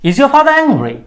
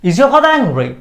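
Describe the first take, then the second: No difference in how they are said.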